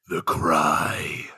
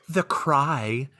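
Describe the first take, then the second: First: It is said with strong, dramatic emphasis. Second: It is said flatly, without emphasis.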